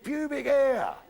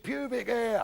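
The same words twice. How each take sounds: First: High, loud schoolboy repeat; emphatic repeat. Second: High-pitched, drawn-out schoolboy answer; schoolboy's answer. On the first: Schoolboy asked to repeat himself to teacher, loud and emphatic. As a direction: repeat it higher and louder for teacher. Boy repeats after "beg your pardon. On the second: Pupil answering the teacher's question, high-pitched. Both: Acted.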